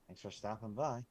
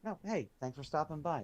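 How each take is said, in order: First: It sounds cold and dismissive. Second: It sounds warm and sincerely grateful.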